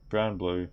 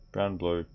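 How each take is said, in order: Both takes have the same delivery.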